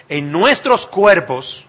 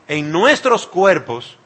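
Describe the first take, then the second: No difference in how they are said.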